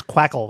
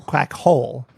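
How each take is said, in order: First: "quackle" as one word, rhyming with spackle; run together as one word. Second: "Quack hole" split, with h sounded in "hole"; two separate words. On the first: Contestant explaining what they misheard, "quackle" said like spackle. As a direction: say "quackle" with a weak, swallowed second syllable. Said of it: "like spackle". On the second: Contestant repeating the corrected answer, "Quack hole" as two distinct words. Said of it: "No, quack hole". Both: Shown as a demonstration.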